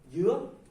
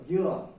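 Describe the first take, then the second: First: The word is said with a rising tone. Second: The word is said with a falling tone. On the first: It means pineapple. "rising tone is you" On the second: It means coconut. "with the falling tones mean coconut"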